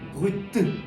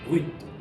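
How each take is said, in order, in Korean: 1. 마지막 t 소리는 강하고 과장되게 나요. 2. 마지막 t 소리는 약하고 살짝만 나요. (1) "끝에 발음을 살린다고 해서 막 브루이트 막 이렇게까지 하실 필요는 전혀 없는 거고요" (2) "살짝만 쌍디귿 발음 비슷하게 내주시면 충분합니다"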